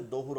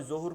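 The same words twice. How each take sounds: First: দহুর with a heavy dad at the start; corrected pronunciation. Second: জহুর with a j-like first sound; common mispronunciation. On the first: Teacher gives the form from the letter dad, corrected pronunciation. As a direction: begin দহুর with thick d rather than j. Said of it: "ঠিক আছে, দর থেকে". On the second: Teacher warns students about the habitual form, common mispronunciation. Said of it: "খেয়াল করতে হবে, এটা উচ্চারণটা". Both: Shown as a demonstration.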